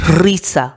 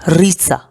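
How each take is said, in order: The two takes are said the same way.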